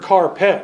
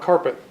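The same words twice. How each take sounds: First: It is split into two words, car and pet. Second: It is said smoothly as a single word. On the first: A pet kept in a car. "in her mind she heard carpet" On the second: A floor covering. "not carpet"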